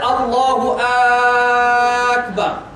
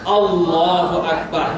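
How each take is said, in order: First: The opening vowel is drawn out long. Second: The opening vowel is kept short. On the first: It asks whether God is the greatest. The speaker calls it wrong. "Alif kat depan yang tambah panjang tu dia jadi Alif Al-Istifham" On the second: It states that God is the greatest. The speaker calls it right. "So yang betul ini macam mana?"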